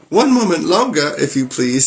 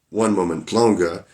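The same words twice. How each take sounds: First: High, louder frantic plea; frightened wife begging Bluebeard for time; pleading wife. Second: Said in the usual way. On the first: Acted. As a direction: beg for one more moment, in a hurry. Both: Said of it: "Oh, whoops".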